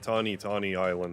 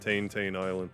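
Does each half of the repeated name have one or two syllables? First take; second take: two; one. First: Each half of the name has two syllables. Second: Each half of the name has one syllable. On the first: This is how someone else suggested it is said. "it's probably like Tawny Tawny Island" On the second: This is how the speaker habitually says it. "I always pronounce it like that"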